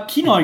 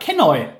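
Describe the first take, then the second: First: The first vowel sounds like 'ee'. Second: The first vowel sounds like 'eh'. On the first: The speaker calls it wrong. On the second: The speaker calls it right.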